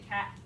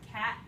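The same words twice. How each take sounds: First: The word ends with no final consonant. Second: The word ends with a glottal stop. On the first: "you don't actually say t" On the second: "Cat with that glottal stop in there"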